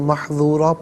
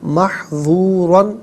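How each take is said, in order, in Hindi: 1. इस शब्द का अंत लंबी 'a' की ध्वनि से होता है। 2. इस शब्द का अंत 'an' की ध्वनि से होता है।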